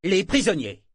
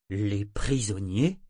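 First: Loud, high, falling, firm repetition. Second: Slow, dazed question with a rise. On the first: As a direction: repeat it as an order. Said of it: "répéta Kenneth d'un ton ferme". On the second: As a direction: echo it back, not understanding. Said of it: "fit Sorcor hébété". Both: A narrator's reading.

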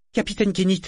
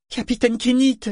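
First: Voix de garçon aiguë, suppliante; garçon désespéré. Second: Cri de garçon très aigu et fort; appel désespéré. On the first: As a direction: appeler le capitaine avec détresse. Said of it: "sur un ton désespéré". (le mousse appelle son capitaine, voix aiguë et désespérée) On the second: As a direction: crier le nom du capitaine, au comble de la détresse. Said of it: "répéta Yémin sur un ton désespéré". (le mousse répète son appel au capitaine, criant, désespéré) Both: A narrator's reading.

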